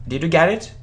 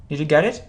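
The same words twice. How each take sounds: No difference in how they are said.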